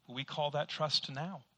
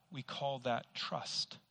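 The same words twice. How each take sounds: First: "now" added and weighed, slow; stress on now. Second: Slow, "call" leaned on; plain first take. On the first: Preacher corrects himself to congregation, stressing now. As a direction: correct the phrase with "now" tacked on. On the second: Preacher says it before correcting. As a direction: stress on call. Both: Shown as a demonstration. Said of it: "No, actually".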